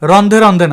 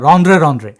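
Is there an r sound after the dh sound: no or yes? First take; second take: no; yes. First: The cluster is said without an r sound. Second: The cluster is said with an r sound. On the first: The speaker calls it wrong. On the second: The speaker calls it right.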